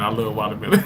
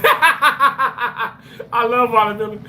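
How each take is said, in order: First: Said in the usual way. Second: Higher, slow, laughing through the words; laughing confession. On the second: Real, not acted. Streamer to chat, laughing. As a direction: laugh it out as you own up to loving it. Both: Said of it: "I'm lying".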